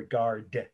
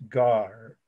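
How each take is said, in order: First: "garde" said the English way, final d sounded; "garde" anglicised, ending on a d; English pronunciation. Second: "gare" said the French way, final d silent; "gare" drawn out with no d at the end; French pronunciation. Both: Shown as a demonstration. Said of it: "if we say it in English".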